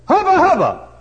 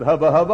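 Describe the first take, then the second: First: Loud cheer; hollered. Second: Said in the usual way. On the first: Retold or imitated. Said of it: "touch the top and say". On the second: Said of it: "Why you said".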